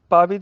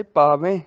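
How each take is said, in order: First: ਪਾਵੇ with narrow oral e; wrong ending. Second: ਪਾਵੈ ending in nasal ai; nasal pronunciation. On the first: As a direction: end ਪਾਵੇ on plain e. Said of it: "ਦੀ ਬਜਾਏ". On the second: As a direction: send the last vowel of ਪਾਵੈ through the nose. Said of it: "ਨਾਸਕੀ ਉਚਾਰਨ". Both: Shown as a demonstration.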